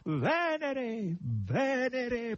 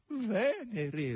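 First: High, swooping triumphant call; exultant, drawn-out cry; victorious proclamation. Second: High, falling lament; whimpered, high-pitched reply; plaintive whine. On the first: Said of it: "proclamò vittoriosamente Natascia". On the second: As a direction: moan it mournfully in a high hog's voice. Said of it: "rispose lamentosamente il verro". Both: A narrator's reading.

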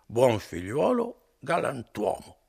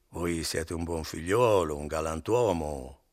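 First: Higher, louder, slow sing-song repetition; drunken echo. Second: Slow, louder, buttering him up; coaxing flattery. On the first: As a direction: parrot his words back, drunk and pleased. Drunk Renzo echoes innkeeper's words. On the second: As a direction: flatter him to get paid. Innkeeper flatters before Renzo echoes. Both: Acted.

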